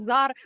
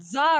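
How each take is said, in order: First: The word begins with a z sound. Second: The word begins with a ts sound. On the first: "you guys all say Zar, so Z" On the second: "not Ts for some reason"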